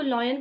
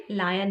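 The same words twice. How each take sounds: First: लॉयन with a rounded "aw" vowel, like "loy-an"; mispronounced lion. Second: लायन with an open "aa" vowel, like "laa-yan"; correct lion pronunciation. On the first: Teacher showing learners how some people mispronounce lion, mispronounced. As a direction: say लॉयन with "loy" as the first sound. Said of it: "कुछ लोग लायन को लॉयन pronounce करते हैं". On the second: Teacher giving learners the proper way to say lion, correctly pronounced. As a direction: say लायन with "lie" as the first sound. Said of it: "इसकी सही pronunciation लायन है". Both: Shown as a demonstration.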